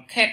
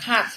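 First: "cat" with the vowel leaning to E. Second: "cat" with an open A vowel. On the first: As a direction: narrow the A of "cat" towards E. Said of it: "Hoặc là đọc là". ("cat" đọc nghiêng về âm E) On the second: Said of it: "Chúng ta thường đọc từ này là". ("cat" đọc với âm A mở) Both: Shown as a demonstration.

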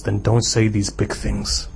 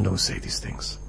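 First: Said in the usual way. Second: Hushed, breathy whispered rebuke; whispered warning. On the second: Acted. Qadi warns the disciple in a whisper.

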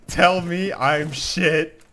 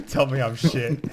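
First: Slow and higher, drawn out; slow, drawn-out demand. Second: Said in the usual way. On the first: Shown as a demonstration. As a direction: stretch every word slowly.

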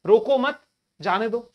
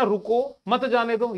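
First: रोको मत together and louder, pause, then जाने दो; pause after मत. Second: रुको set apart, then मत जाने दो run together; pause after रुको. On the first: Teacher showing the other meaning, pause after मत. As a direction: punch रोको मत as one unit, break, then release जाने दो. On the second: Teacher showing one of two meanings, pause after रुको. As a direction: break right after रुको, keeping मत with जाने दो. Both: Shown as a demonstration. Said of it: "उसके दो अर्थ हो सकते हैं ना".

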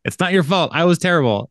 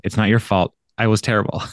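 First: Higher-pitched teasing repeat of an apology; joking mock echo. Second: Said in the usual way. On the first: Podcaster retelling Jake's sex-tape title joke, teasing higher echo. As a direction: lift it high like a joke title.

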